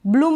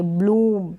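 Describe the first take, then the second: First: ब्लूम said as "blum", short u; the mistaken ब्लूम, vowel kept brief. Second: ब्लूम with the oo drawn out; long oo in ब्लूम. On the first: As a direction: cut the oo of ब्लूम to a quick u. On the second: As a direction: correct it to a long-vowel ब्लूम. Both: Shown as a demonstration. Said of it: "ब्लूम नहीं पढ़ेंगे".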